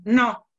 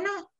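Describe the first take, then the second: First: "No" short, flat and louder; curt refusal. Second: "No" much higher and softer, gentle; soft gentle refusal. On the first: Teacher demos a blunt "No" to an offer. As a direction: snap "No" like a firm refusal. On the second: Teacher demos a gentle, kind "No" to an offer. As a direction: say "No" high and soft, kindly. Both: Shown as a demonstration. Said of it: "no modificó más que la intención".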